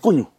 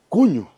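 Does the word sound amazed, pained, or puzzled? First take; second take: pained; amazed. First: It is said with a pained tone. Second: It is said with an amazed tone. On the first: The speaker has been burned. "Que te quemaste, ¡ay" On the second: The speaker is astonished.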